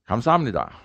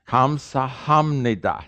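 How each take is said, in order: First: The word is said fast. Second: The word is said slowly.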